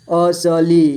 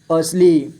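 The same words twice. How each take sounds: First: असली as अ, स, ली; letter by letter. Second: Said in the usual way. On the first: Shown as a demonstration. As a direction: give स its own vowel in असली. (असली को तोड़कर: अ, स, ली) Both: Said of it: "थोड़ा fast पढ़ेंगे".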